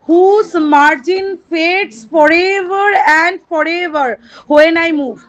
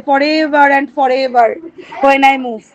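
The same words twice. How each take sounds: First: Each word stretched out like verse; slow poem recitation. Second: Slow poem recitation. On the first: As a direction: recite the line very slowly to the class. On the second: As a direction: recite the line again very slowly. Repeats poem line. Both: Shown as a demonstration.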